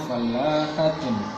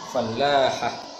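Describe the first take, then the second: First: The word ends with the full -atun ending. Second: The word ends with a short -ah ending. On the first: This is the form as written. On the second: This is the form as read aloud.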